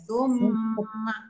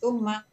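First: The doubled m is held with a nasal hum. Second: The doubled m is short, with no nasal hum. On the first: The speaker calls it right. "wajiblah dengungannya" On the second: The speaker calls it wrong. "Jangan summa. Ha, macam tu tak mau ya"

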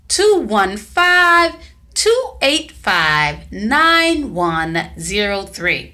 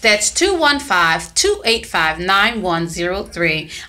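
First: The number is said slowly. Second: The number is said at normal speed.

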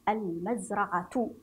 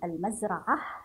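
First: The word ends in a clear t sound. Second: The word stops and ends in an h sound.

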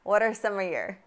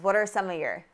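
First: The words are reduced and run together smoothly. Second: The words are reduced and run together smoothly.

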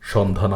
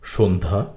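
First: The first vowel is an open aw sound. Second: The first vowel sounds like o. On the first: The speaker calls it wrong. "সন্ধ্যা না" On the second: The speaker calls it right. "শব্দটির সঠিক উচ্চারণ হল সন্ধ্যা"

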